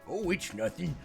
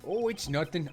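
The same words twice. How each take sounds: First: It is said in a doddering old man voice. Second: It is said in his plain voice.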